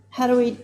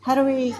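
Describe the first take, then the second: No difference in how they are said.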